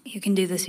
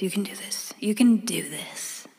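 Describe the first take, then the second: First: Said in the usual way. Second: Whispering to herself for courage; whispered pep talk. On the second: Real, not acted. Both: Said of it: "fearless in the face of making an intimidating phone call".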